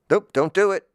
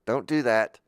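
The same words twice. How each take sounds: First: Sudden loud no. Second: Said in the usual way. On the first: Acted. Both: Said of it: "I'm just testing".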